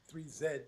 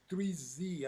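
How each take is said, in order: First: The letter Z is said the British way. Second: The letter Z is said the American way.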